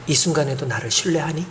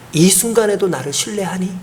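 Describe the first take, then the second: First: Hushed, soft question brushing past the ear; soft voice of God. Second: Said in the usual way. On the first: Retold or imitated. God speaks gently into the grieving pastor's ear, hushed. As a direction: breathe 이 순간에도 나를 신뢰하니 softly, barely voiced. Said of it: "귀를 이렇게 스치면서 음성을 들려주시는". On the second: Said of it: "음성을 들려주시는".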